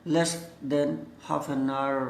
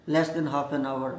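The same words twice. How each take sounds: First: Very slow, "hour" said as a long "aar"; one-syllable hour. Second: Slow, with "hour" said as "aa-wur"; two-syllable hour. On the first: Teacher models good English, "hour" as "aar", very slowly. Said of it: "आवर ना बोलकर आर बोलते हैं". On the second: Teacher models the acceptable form, "hour" as "aa-wur", slowly. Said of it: "आवर बोला जा सकता है". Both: Shown as a demonstration.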